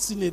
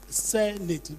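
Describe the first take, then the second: First: The first vowel is not an eh sound. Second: The first vowel is an eh sound. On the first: The speaker calls it wrong. "It's not Senate" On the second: The speaker calls it right. "It's Senate. ... Eh, say eh, eh"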